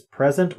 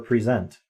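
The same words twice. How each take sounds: First: PREsent, like a gift; noun pronunciation. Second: PreSENT, as in to present; verb pronunciation. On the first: Streamer offering viewers both readings, PREsent first. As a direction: present said PREsent, stress on first syllable, short e. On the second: Streamer offering viewers the other reading, preSENT. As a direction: present said preSENT, stress on second syllable, ri-ZENT. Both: Shown as a demonstration. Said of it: "present or present".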